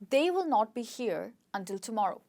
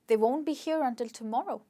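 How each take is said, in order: First: The words will and not are said separately. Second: The words will and not merge into one syllable. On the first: "the full form of the sentence" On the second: "can actually be contracted"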